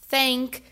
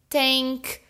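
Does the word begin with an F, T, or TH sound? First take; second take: TH; T. First: It begins with a TH sound. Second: It begins with a T sound.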